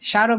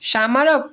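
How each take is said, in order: First: No separate m sound is heard in it. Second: A separate m sound follows the first consonant. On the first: The speaker calls it right. "কিন্তু হ্যাঁ স্মারক বলি" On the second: The speaker calls it wrong. "সামারক না"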